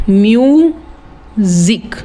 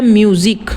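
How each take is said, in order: First: म्यूजिक split into two drawn-out beats, म्यू and जिक; syllable by syllable. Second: Said in the usual way. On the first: Shown as a demonstration. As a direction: stretch म्यूजिक slowly, pausing between म्यू and जिक. (म्यूजिक को तोड़कर, धीरे-धीरे म्यू... जिक) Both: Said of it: "इसमें कितने syllable की".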